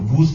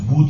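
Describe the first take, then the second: First: The word ends with a z sound. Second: The word ends with a d sound.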